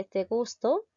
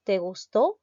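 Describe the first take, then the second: First: "gusto" with the stress on the first syllable, GUS-to. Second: "gustó" with the stress on the last syllable, gus-TÓ. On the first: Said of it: "Usen tildes entre te gusto". ("gusto" con acento en GUS) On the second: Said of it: "Usen tildes entre te gusto, te gustó". ("gustó" con fuerza en la última sílaba, TÓ) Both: Shown as a demonstration.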